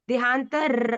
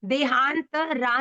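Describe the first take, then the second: First: The final vowel is kept short. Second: The final vowel is drawn out long. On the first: The speaker calls it right. "हम आ की मात्रा को संतुलित करेंगे" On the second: The speaker calls it wrong. "देहांत रा नहीं है"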